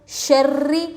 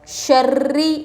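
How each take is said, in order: Both takes have the same delivery.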